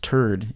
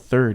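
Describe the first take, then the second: First: It starts with a plain t sound. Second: It starts with a th sound. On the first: "it's it's turd" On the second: "third is not you know third"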